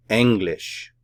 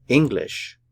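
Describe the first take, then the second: First: "English" the German way, opening with "eng", not "ing"; "English" with an open e at the start, first syllable stressed; German pronunciation. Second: Said in the usual way. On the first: Shown as a demonstration. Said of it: "eng and lish". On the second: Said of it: "The syllabification for this word".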